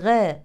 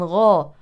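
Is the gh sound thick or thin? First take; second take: thin; thick. First: The gh is thin, with the tongue back lowered. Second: The gh is thick, with the tongue back raised. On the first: The speaker calls it wrong. "ليست غا" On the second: The speaker calls it right. "ولكن غا"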